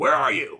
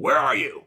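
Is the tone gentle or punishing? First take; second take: punishing; punishing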